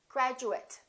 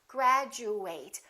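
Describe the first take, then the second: First: The final syllable is a reduced 'it' sound. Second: The final syllable is a full 'eight' sound. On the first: It is used as a noun or adjective. "then this is reduced, and it kind of sounds like it" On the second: It is used as a verb. "If it's a verb, we fully pronounce eight"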